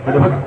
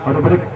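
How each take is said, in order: The two takes are said the same way.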